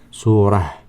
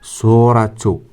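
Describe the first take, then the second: First: The word ends with a soft h sound. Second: The word ends with a tu sound. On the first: The reading stops after this word. "If we have here full stop" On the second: The reading continues without stopping. "but we don't have full stop"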